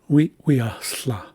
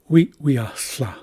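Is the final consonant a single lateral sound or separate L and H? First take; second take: single lateral; single lateral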